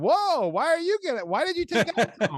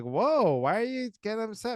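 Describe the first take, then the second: First: Very high, mocking wife voice; caricatured wife firing back, falsetto; imitating wife. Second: Higher-pitched mock defensiveness; imitated husband's protest, pitched up; retold defensive husband. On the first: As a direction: squeak out her indignant side of the spat. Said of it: "And she's like". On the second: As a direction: act out your own startled side of a spat. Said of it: "'Cause I'll be like".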